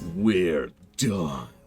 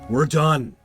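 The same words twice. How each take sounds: First: It is said in a calm voice. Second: It is said in an angry voice.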